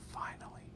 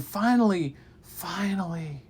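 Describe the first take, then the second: First: Faint whispered finally. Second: Building finale. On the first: Teller fading the word finally to a whisper. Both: Shown as a demonstration. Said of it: "finally x3 fading".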